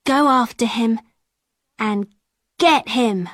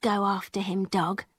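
First: Said in the usual way. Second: Very soft, low order to the dog; girl softly setting her dog on the peddler; quiet command. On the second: A narrator's reading. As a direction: murmur it down to the dog. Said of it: "she said".

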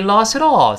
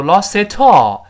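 First: "lost it all" with the t of "it" softened to a light d; voiced t. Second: "lost it all" louder, with a hard aspirated t before "all"; wrong unvoiced t. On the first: Teacher gives learners the model to repeat, softened linked t. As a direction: link "it all" with a quick flapped d sound. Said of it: "最后注意那个t还有浊化". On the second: Teacher warns learners against this awkward reading, hard t. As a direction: punch a crisp "t" into "it all", like "tall". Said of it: "不要读lost it all". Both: Shown as a demonstration.

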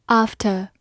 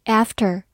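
First: "after" in a British accent, long back AH, no R; British pronunciation. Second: "after" in an American accent, flat A as in cat; American pronunciation. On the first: Teacher repeats a review word for learners, British accent. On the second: Teacher gives learners the other pronunciation, American accent. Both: Shown as a demonstration. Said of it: "美式发音读作after".

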